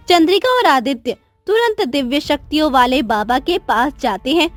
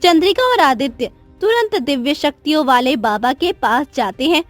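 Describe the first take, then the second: No difference in how they are said.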